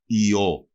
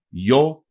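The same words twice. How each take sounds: First: «ι-ο» as two separate vowels, i then o; separated vowels. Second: «γιο» as one syllable, yo; soft i. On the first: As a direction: keep the i apart from the o in «ι-ο». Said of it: "δεν θα γράφονται με". («ι-ο» με χωριστό ι και ο) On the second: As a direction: glide the soft i straight into o in «γιο». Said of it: "την μαλακή μορφή του". («γιο» μονοσύλλαβα, με μαλακό ι) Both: Shown as a demonstration.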